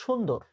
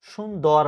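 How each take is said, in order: First: সুন্দর pronounced shun-dor, closed final vowel; standard pronunciation. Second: সুন্দর mispronounced as shun-dawr; shun-DAWR for সুন্দর, open final vowel; wrong pronunciation. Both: Shown as a demonstration. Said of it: "আমরা বলবো সুন্দর".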